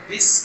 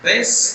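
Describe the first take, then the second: First: "بس" with a thin short i, like "bis"; light, narrow "bis" for "بس"; thin vowel. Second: "بس" with a broad e, like "bes"; wrong, open "bes" for "بس"; too-heavy vowel. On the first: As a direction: say "بس" finely as the corrected version. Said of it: "بس کو اور تھوڑا سا باریک کریں". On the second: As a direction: say "بس" thickly as the mistaken version. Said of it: "کی بجائے بس کہیں". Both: Shown as a demonstration.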